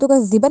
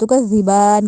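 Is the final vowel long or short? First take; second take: short; long. First: The last vowel is short. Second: The last vowel is long. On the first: The speaker calls it wrong. "तुकज़्ज़िबन नहीं कहना" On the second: The speaker calls it right. "तुकज़्ज़िबान कहना है"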